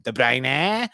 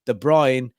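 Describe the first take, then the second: First: De Bruyne as "de bry-NEH", rising at the end; commentator's mispronunciation. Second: Said in the usual way. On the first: Retold or imitated. Echoing the fifa commentator, mispronounced. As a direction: lift a long final "neh" on De Bruyne. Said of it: "that's what he is". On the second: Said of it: "he's De Bruyne".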